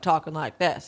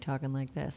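First: It is said loudly. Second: It is said quietly.

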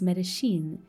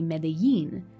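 First: The double L is said with a sh sound. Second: The double L is said the Mexican Spanish way. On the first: "in Argentina and Uruguay, the double L takes a sh sound instead" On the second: "how the double L is enunciated in certain Spanishes of the world, including the Spanish of Mexico"

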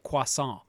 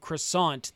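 First: It is pronounced the French way. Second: It is pronounced the English way. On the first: "instead of like croissant" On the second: "That's like the English version of a French word"

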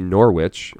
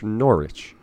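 First: It is said the American way. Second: It is said the English way. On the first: "in Connecticut, it would be Norwich" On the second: "in England, it's Norwich. It's because you guys have a stupid accent and you miss letters"

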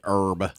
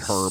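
First: The word begins with a vowel sound, no h. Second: The word begins with an audible h sound. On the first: The speaker calls it wrong. "I don't say herb" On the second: The speaker calls it right. "I say herb. it's got an H"

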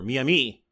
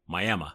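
First: It is said in the usual modern way. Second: It is said in the old local Florida way. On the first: This is how most people say it today. "when it really, really became Miami" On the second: This is how native Floridians used to say it. "He pronounced it the way it was pronounced by Florida people"

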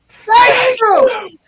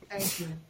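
First: It is said loudly. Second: It is said fairly quietly.

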